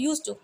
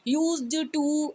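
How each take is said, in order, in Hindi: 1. d की आवाज़ छूट जाती है, जल्दी बोलने से। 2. d की आवाज़ पूरी तरह बोली जाती है। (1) "फटाफट से उस वर्ड को बहुत ईजी बोलने के लिए" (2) "ऐसे तो नहीं बोलते हम"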